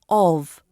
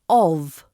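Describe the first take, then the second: Both takes have the same delivery.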